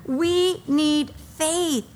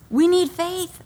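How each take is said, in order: First: "We need faith." drawn out slowly, each word weighted; slow it right down and lean on every word of "We need faith."; slow emphasis. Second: Said in the usual way. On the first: Shown as a demonstration. Repeats key line for emphasis.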